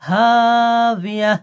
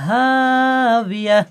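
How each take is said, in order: The two takes are said the same way.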